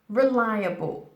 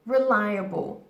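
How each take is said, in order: No difference in how they are said.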